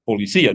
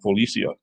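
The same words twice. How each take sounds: First: The stress falls on the 'i'. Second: The stress is not on the 'i'. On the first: The speaker calls it right. "you still better say it right" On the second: The speaker calls it wrong. "not Policia"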